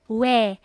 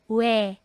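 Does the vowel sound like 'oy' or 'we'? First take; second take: we; we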